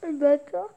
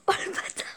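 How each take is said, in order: First: Le bâtard said through a laugh, rising at the end; laughing exclamation. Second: Breathless whispered oh, le bâtard, higher; shocked whisper. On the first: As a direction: burst out le bâtard while cracking up. Repeats it laughing. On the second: Reacting to the joke's punchline, whispered. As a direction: hiss oh, le bâtard under the breath in disbelief. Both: Real, not acted.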